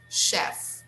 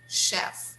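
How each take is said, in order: Both takes have the same delivery.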